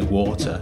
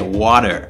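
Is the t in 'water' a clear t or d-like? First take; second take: clear t; d-like. First: The middle t is a clear t sound. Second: The middle t sounds like a soft d. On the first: This is the British way of saying it. "I say water" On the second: This is the American way of saying it. "you say water... you don't write it W-A-D-E-R because it's a T in the middle of the word that you're not pronouncing"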